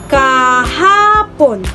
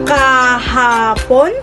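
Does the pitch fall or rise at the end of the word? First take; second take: fall; rise. First: The pitch rises, then falls lowest at the end. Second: The pitch dips, then rises highest at the end. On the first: The speaker is affirming the word. "sa dalawa, tatlo at isa. Kahapon na nangangahulugang pagpapatibay ng isang salita" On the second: The speaker is doubtful or questioning. "sa dalawa, isa at tatlo na nangangahulugang nag-aalinlangan"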